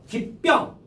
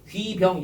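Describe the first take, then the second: First: The b sound of 병 is tense, like ppyeong. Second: The b sound of 병 is plain and soft. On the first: The speaker calls it right. "귀병 되잖아요" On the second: The speaker calls it wrong. "귀병 이러지 말고"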